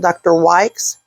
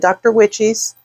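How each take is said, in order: First: The name has one syllable, like 'wykes'. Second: The name has two syllables, like 'witch-ees'.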